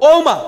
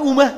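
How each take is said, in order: First: The first vowel is an open 'o' sound. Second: The first vowel is a closed 'u' sound. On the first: The speaker calls it right. "এটা হবে কি ও" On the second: The speaker calls it wrong. "আমরা বলি উমা"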